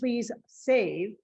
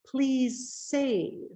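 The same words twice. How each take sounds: First: The S sound is said twice, separately. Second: One long hissing S links the words. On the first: The speaker calls it wrong. "instead of saying" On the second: The speaker calls it right. "I say the sound once"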